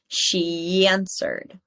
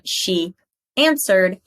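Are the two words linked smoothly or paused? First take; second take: linked; paused. First: The two words run together with a y sound. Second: The two words are separated by a pause. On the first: The speaker calls it right. "we hear no pause there" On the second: The speaker calls it wrong. "It's not she answered"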